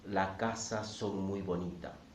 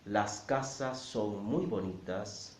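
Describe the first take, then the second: First: The S sounds at word ends are dropped. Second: The S sounds at word ends are pronounced.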